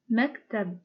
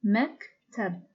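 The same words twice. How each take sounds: First: Said in the usual way. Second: "مكتب" broken into two beats with a gap; "مكتب" pulled apart into two separate syllables; split into syllables. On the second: Shown as a demonstration. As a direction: say "مكتب" syllable by syllable, pausing midway. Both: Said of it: "is a two syllable word".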